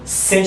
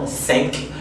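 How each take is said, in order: First: The final consonant is left silent. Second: The final consonant is clearly pronounced. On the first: The next word begins with a consonant. "La prononciation de la lettre finale va demeurer, si on veut, muette" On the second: The next word begins with a vowel. "avec une prononciation courante qui est genre cinq"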